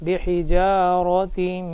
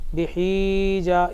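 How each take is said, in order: First: The vowel in the middle is short and quick. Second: The vowel in the middle is drawn out long. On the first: The speaker calls it right. "जल्दी जल्दी पढ़ेंगे ... इस तरीक़े से पढ़ेंगे" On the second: The speaker calls it wrong. "इसको इस तरीक़े से खींचेंगे नहीं"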